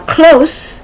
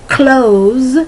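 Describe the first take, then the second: First: The word ends with a hissing s sound. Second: The word ends with a buzzing z sound. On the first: It means near. "which means to be near someone" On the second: It means to shut. "to close the door, to shut the door"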